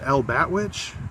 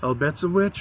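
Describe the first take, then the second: First: The name is said with 'bat' in the middle. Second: The name is said with 'betza' in the middle. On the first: The speaker calls it wrong. "my whole life I pronounced it El Batwitch" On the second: The speaker calls it right. "it's pronounced something different"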